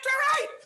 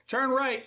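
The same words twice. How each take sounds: First: It is said fast, loud and high. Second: It is said in a flat monotone.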